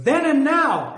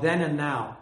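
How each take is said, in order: First: Then and Now! much higher and louder, punched; exclamation point voiced. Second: Said in the usual way. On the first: Shown as a demonstration. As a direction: shout the title like it has an exclamation mark. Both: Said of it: "Exclamation point".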